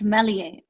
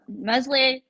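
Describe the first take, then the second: First: The S in the middle is silent. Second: The S in the middle is pronounced. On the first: The speaker calls it right. "it's a silent S" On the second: The speaker calls it wrong. "I think I'm saying it wrong"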